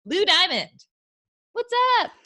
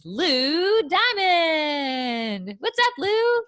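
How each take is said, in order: First: Loud, high announcer hype; game show host. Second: Big drawn-out announcer intro; game show host. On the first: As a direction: call him onstage like a host. Announcing the guest's entrance. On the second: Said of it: "It sounds like a game show host". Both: Acted.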